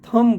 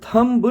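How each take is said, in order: First: The word ends on the m sound, no b. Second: The word ends with an audible b sound. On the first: The speaker calls it right. "थम बोलते हैं" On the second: The speaker calls it wrong. "थम्ब नहीं"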